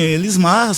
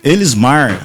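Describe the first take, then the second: First: The R in the name fades away. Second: The R in the name is clearly pronounced.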